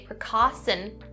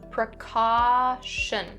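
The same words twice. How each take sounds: First: The middle consonant is a plain s sound. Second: The middle consonant is an sh sound. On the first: The speaker calls it wrong. "Don't change that sh to a s sound. Don't say precaution. Not correct" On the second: The speaker calls it right. "upon the sh sound"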